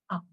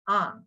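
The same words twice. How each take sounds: First: The vowel is very brief and clipped. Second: The vowel is short. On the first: "very, very short" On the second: "a short tone"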